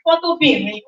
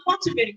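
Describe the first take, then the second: First: "Photo Bearing" with "Photo" sounded roughly as "wawkul"; corrected name. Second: "Photo Bearing" with a P and a soft "ta" in "Photo"; mispronounced name. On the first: Host giving the guest's brand name, corrected pronunciation. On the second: Host ruling out a wrong brand name, mispronounced version. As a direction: give "Photo Bearing" as the wrong form, starting on P. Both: Shown as a demonstration. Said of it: "it's not Photo Bearing".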